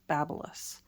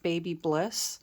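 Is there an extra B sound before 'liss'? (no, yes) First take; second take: no; yes. First: No extra B sound comes before 'liss'. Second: An extra B sound comes before 'liss'. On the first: The speaker calls it right. "it's pronounced Babyliss" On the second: The speaker calls it wrong. "A lot of people mispronounce it and call it Baby Bliss"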